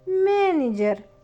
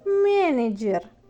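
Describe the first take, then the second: First: It is said with a Russian accent. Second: It is said with a Russian accent.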